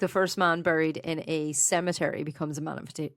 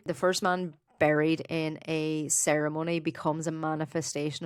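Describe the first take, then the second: First: "cemetery" said carefully in place of "ceremony", as a correction; clearly says "cemetery" in "buried in a cemetery"; corrected word. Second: "ceremony" said in place of "cemetery", as a slip; slip of the tongue. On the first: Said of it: "Oh, did I? Okay, yeah". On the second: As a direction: says "ceremony" in "buried in a ceremony" by mistake. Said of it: "I think you said a new ceremony". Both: Real, not acted.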